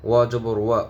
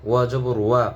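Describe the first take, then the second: The two takes are said the same way.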